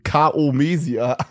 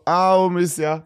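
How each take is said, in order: First: The initial k sound is clearly pronounced. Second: The initial k sound is swallowed and dropped. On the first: It is read straight from the written form. "Ich hätte das vorgelesen" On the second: It is how native speakers actually say it. "Aber die verschlucken voll viel. ... Es war so"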